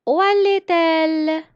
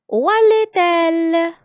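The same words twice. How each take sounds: First: "allait-elle" linked, high and loud; liaison, louder. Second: "allait-elle" linked with the t, high and loud; liaison, high and loud. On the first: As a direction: repeat the linked question for the class. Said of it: "je fais la liaison". (« allait-elle » répété fort, liaison faite) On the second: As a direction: project the question to the class. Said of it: "Encore, je fais la liaison". (« Où allait-elle ? » fort et aigu, avec la liaison) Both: Shown as a demonstration.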